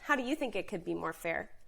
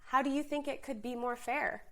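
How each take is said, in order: First: The question sounds sharp and confrontational. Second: The question sounds open and genuinely curious. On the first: The listener will feel attacked and shut down. The speaker calls it wrong. "If you go into it with the attitude of, well" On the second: The listener is invited to help solve the problem. The speaker calls it right.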